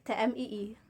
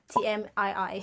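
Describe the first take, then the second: First: The letters are read with Indonesian letter names. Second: The letters are read with English letter names. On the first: "because that's how Indonesian pronounce it" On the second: "we abbreviate it into T M I I"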